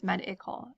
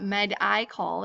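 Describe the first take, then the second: First: Med-i-col with a short I, as in "it"; correct short i. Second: Med-i-col with a long I, said like "my"; wrong long i. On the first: Teacher giving students the right med-i-col, short I. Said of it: "It's a short vowel sound". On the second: Teacher showing students the wrong med-i-col with a long I. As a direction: give the I of med-i-col its long sound, as a mistake. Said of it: "it's not med-i-col". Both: Shown as a demonstration.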